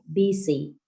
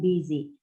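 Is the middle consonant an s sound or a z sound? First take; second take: s sound; z sound. First: The middle consonant is an s sound. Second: The middle consonant is a z sound. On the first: The speaker calls it wrong. "which is the wrong one" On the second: The speaker calls it right. "people pronounced with correct sound"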